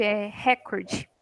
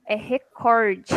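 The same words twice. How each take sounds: First: "recorde" with stress on the first syllable, HE-korde; slow, drawn-out "recorde", stressing RE; wrong stress. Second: "recorde" stressed on cor, re-KOR-de; slow and firm: "recorde" with an open stressed cor; correct stress. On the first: Teacher imitates the common wrong "recorde". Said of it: "vejo falar errado". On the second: Teacher corrects to "recorde", stressing cor. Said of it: "Tá errado". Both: Shown as a demonstration.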